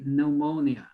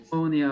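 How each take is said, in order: First: The word starts with a plain N sound. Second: The word starts with an audible P sound. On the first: This is the usual way people say it. "they usually do not pronunciate the P here" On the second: This is a less usual but accepted way. "this is not wrong, okay, to pronunciate the P"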